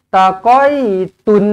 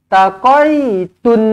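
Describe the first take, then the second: The two takes are said the same way.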